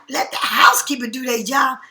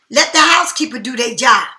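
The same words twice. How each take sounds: First: Incredulous question, voice rising at job; disbelieving echo. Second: Quoting a friend's bossy call; mock shout. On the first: Retold or imitated. She repeats her friend's words back, incredulous. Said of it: "I'm looking at you like". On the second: Friend telling her to leave the bed for the housekeeper, mock shout. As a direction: bark it like someone giving orders. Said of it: "you be telling me".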